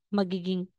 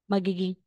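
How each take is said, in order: Both takes have the same delivery.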